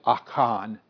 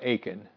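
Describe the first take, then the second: First: The first vowel is a short open 'ah'. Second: The first vowel is a long 'ay'. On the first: The speaker calls it right. "You never see A in Hebrew. It's always Ah. ... in my opinion, this is Achan" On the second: The speaker calls it wrong. "It's not Achan. But most people say Achan"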